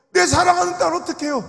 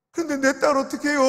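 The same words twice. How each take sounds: First: 내 hit hard, higher and louder still; an elder's rising wail over 내 딸; anguished cry. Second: 딸 pressed, higher and louder; an elder's pleading cry over 딸; desperate plea. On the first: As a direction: break out over 내 사랑하는 딸. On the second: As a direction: ask who will save 딸. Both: Retold or imitated. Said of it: "그분이 뭐라는지 알아요".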